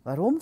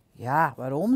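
First: Short, puzzled rising question. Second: Low start rising into the question; incredulous echo. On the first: Piak to the guard about the toll, puzzled. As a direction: ask WAAROM as a simple challenge. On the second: Guard repeating Piak's question back at him, incredulous. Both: A narrator's reading.

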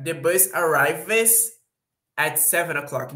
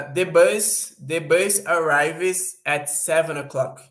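First: Slow English repeat of the example; slow example read. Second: Slow, deliberate English example; slow example read. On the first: Teacher repeating the bus example slowly to students. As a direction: say it again slowly after translating. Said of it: "example repeated after translation". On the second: Teacher reading the bus example slowly to students. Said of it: "example sentence demo". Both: Shown as a demonstration.

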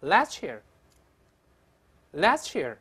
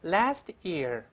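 First: Last year joined as "las-cheer"; linked pronunciation. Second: Last year as two words, American short a; slow careful reading. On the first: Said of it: "变成ch这个声音了". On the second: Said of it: "慢慢读". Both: Shown as a demonstration.

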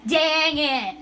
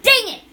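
First: Stretched, falling grumbled curse; drawn-out frustration. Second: Quick, high, loud yelp; frustrated outburst. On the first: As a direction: let it sag slowly after the miss. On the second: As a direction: snap it out after a miss. Frustrated at missed play. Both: Real, not acted.

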